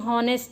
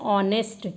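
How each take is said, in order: First: The word begins with an h sound. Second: The word begins with a vowel, h silent. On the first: The speaker calls it wrong. "बहुत लोग गलत pronounce कर देते हैं" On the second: The speaker calls it right. "H इसमें क्या है, silent है"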